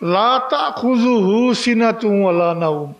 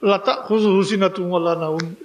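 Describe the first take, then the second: First: The words are recited carefully and clearly separated. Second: The words are rushed and run together carelessly. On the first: The speaker calls it right. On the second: The speaker calls it wrong.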